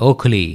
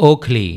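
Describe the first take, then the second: The two takes are said the same way.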